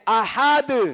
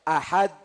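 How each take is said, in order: First: The final d bounces with a short echo. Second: The final d stops flat with no echo. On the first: The speaker calls it right. "दाल पर आवाज लगकर टकरा कर" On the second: The speaker calls it wrong. "अहद नहीं है"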